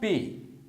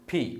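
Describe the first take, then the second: First: The P is said without a strong puff of air. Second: The P is said with a strong puff of air. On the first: The speaker calls it wrong. "It's not P" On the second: The speaker calls it right. "it's called P"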